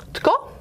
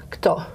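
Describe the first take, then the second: First: "tko" with t before k in one cluster; high-pitched, isolated "tko", opening on t-k; Bosnian-Croatian-Montenegrin-Serbian pronunciation. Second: "kto" with k before t in one cluster; isolated "kto", opening on k-t; Russian pronunciation. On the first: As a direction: say "tko" as a single syllable, t then k. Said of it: "the word for who is". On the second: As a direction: say "kto" as a single syllable, k then t. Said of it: "but in Russian it is". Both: Shown as a demonstration.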